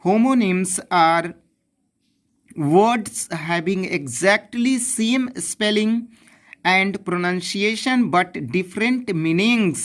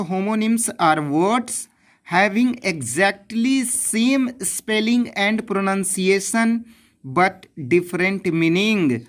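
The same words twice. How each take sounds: First: Even slower, word by word dictation. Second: Definition read very slowly, word by word; slow dictation. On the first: Teacher repeating the definition, slower dictation. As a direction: dictate again with long pauses. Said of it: "आपका परिभाषा क्या होता है?". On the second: Teacher giving the textbook definition, slow dictation. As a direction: dictate it so students can copy. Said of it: "definition की बात करते हैं". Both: Shown as a demonstration.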